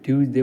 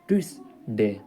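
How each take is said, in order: First: The middle consonant is a z sound. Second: The middle consonant is an s sound. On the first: The speaker calls it wrong. "हम भी शुरू शुरू पढ़े हैं ट्यूजडे ट्यूजडे पढ़ते हैं" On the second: The speaker calls it right. "लेकिन ये ऐसे ना ट्यूसडे होता है"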